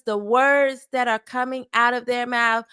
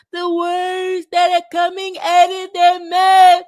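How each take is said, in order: First: Said in the usual way. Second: High, loud mock-hurt voice; mocking complainer. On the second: Host mimicking people who are hurt by words, mocking. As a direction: exaggerate it into a loud, high-pitched jeer.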